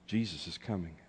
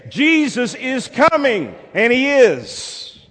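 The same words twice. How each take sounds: First: Soft, low and solemn; understated, weighty announcement; hushed proclamation. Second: High, slow, full-force proclamation; triumphant pulpit cry; climactic preacher's shout. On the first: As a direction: let it fall quietly into the room. Hushed start of repeated refrain. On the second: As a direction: shout it out with long-held words. Shouted climax of repeated refrain. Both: Real, not acted.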